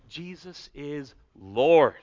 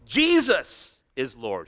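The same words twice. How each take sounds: First: The stress falls on the word Lord. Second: The stress falls on the word Jesus. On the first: He is ruler and sovereign over all. "if we put it on that last word" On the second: It is this person, and no other, who is Lord. "If we put the emphasis on Jesus"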